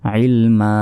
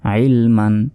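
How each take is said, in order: First: The word ends with a lengthened vowel. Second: The word ends with an n sound. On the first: The reading stops at this word. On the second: The reading continues without stopping.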